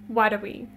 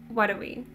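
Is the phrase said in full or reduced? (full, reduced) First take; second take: reduced; reduced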